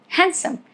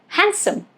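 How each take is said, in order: No difference in how they are said.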